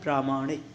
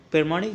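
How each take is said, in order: First: प्रामाणिक with long "praa"; correct form. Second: प्रमाणिक with short first vowel; wrong form. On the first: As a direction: stretch the first vowel of प्रामाणिक. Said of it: "ये होता है". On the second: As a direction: open प्रमाणिक as "per". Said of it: "नहीं होता". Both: Shown as a demonstration.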